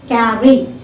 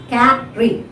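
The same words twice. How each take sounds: First: Said in the usual way. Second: "carry" split in two, stress on CA; syllable by syllable. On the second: Shown as a demonstration. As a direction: break "carry" into CA, then ry. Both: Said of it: "first syllable is stressed".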